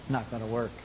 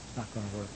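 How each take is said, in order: First: Said in the usual way. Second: A quiet final echo of the warning; hushed echo. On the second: Acted. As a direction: drop it to a near hush, softer and lower. Echo drops to near hush.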